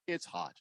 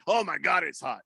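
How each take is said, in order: First: Said in the usual way. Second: Mock exclamation. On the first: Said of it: "One oh five is where you can say". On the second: Shown as a demonstration. Radio host showing an overblown heat complaint, mock exclamation. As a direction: exaggerate the complaint, then let it fall. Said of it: "But you can't say".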